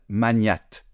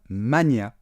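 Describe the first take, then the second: First: The word ends with a T sound. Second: The word ends without a T sound. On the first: The speaker calls it wrong. "ils prononcent un T final" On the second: The speaker calls it right. "on ne prononce pas le T final"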